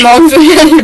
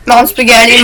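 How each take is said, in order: First: Mom spaghetti shouted higher and louder. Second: Said in the usual way. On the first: Pretend. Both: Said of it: "repeated chant varied".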